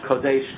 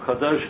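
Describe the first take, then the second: First: The first vowel sounds like 'o'. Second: The first vowel sounds like 'a'. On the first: This is the pronunciation of the Adeni community. "They do not pronounce the comet like a patach" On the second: "for Kadosh"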